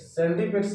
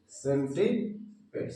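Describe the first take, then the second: First: Said in the usual way. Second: सेंटीपेड्स slowly, split in two parts; drawn-out teaching of सेंटीपेड्स; word broken up. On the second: Shown as a demonstration. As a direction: say सेंटीपेड्स slowly with a gap before pads. Teacher breaks up new word.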